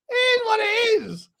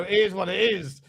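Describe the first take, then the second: First: High sing-song. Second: Said in the usual way. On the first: Shown as a demonstration. Repeats the phrase higher.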